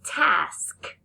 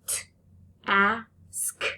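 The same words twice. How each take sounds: First: Said in the usual way. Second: "T-ask" split as a T then "ask"; sound-by-sound split. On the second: Shown as a demonstration. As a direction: break "T-ask" after the T. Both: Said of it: "So that final blend was that sk".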